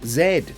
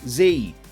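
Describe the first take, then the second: First: The letter is said as zed. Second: The letter is said as zee. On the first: This is the form used in most English-speaking countries. "pretty much every country that has English as its main language says Z" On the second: This is the American form. "influence children to pronounce it as Z"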